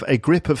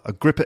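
First: The word 'of' is fully and carefully pronounced. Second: The word 'of' is reduced and run together quickly. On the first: The speaker calls it wrong. "It doesn't work like that, does it?" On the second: The speaker calls it right. "And it's got to be said quickly"

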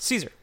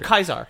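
First: The name begins with a soft S sound. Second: The name begins with a hard K sound. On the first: This is the usual modern way to say it. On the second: This is probably how it was said in ancient Rome.

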